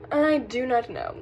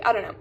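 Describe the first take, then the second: First: "I do not know" slowly spaced out; slow, deliberate "I do not know"; emphatic restatement. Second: Said in the usual way. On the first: Real, not acted.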